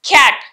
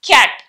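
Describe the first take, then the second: Both takes have the same delivery.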